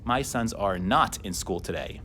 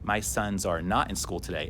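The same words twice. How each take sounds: The two takes are said the same way.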